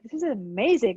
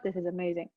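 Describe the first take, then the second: First: It is said with real feeling and energy. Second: It is said flatly, as if recited. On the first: The speaker truly feels the words. The speaker calls it right. "Feel it. Like this is amazing" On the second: The speaker is just reciting the words. The speaker calls it wrong. "not this is amazing"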